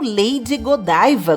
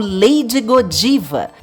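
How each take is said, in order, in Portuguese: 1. O nome é dito com pronúncia inglesa. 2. O nome é dito com pronúncia portuguesa.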